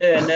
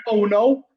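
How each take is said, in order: First: Hull "Uh, no", vowels flattened to "er"; imitated Hull accent. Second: "Oh, no" with rounded "oh" vowels, Manc style; proper pronunciation. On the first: Mum repeating what her son said, imitated Hull accent. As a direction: mimic the Hull slip in "Uh, no". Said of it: "You said". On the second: Retold or imitated. Son claiming he said it properly, proper pronunciation. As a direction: quote "Oh, no" said the correct way. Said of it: "I've got more of a Manc accent".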